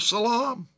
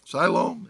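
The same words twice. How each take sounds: First: "Siloam" said suh-LAHM; alternate pronunciation. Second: "Siloam" said SIGH-loam; corrected pronunciation. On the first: Preacher reading the pool's name, "Siloam" as suh-LAHM. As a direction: say "Siloam" with an unstressed first syllable, suh-LAHM. Says the name, then corrects it. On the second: Preacher correcting the pool's name, "Siloam" as SIGH-loam. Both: Real, not acted.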